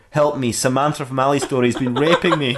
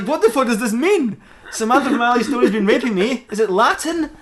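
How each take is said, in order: First: Said in the usual way. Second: High-pitched, incredulous questioning; acted bafflement, voice pitched way up; baffled outburst. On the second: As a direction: read it back in bewildered disbelief. Batman baffled by the message.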